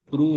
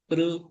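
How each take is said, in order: First: The vowel after the r sounds like u. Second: The vowel after the r sounds like i. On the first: The speaker calls it wrong. "புரு இல்ல" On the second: The speaker calls it right.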